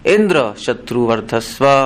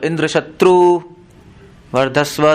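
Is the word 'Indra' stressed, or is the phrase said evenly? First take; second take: stressed; even. First: The first word, Indra, is strongly stressed. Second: The phrase is said calmly without stressing Indra. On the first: The strength of Indra himself should grow. "अगर Indra पे जोर लगाओ, ऐसे बोलो" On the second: The strength of Indra's enemy should grow. "अगर आराम से बोलो"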